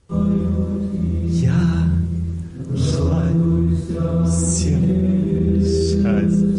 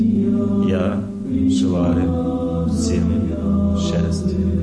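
First: It is said with showy, put-on happiness. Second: It is said calmly, without put-on emotion.

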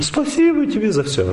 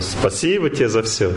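First: The thanks sound humbled and servile. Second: The thanks sound dignified and sincere. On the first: The speaker feels humiliated and dependent. The speaker calls it wrong. "Не" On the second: The speaker feels noble and truly grateful. The speaker calls it right. "как бы чувствует себя благородно рядом"

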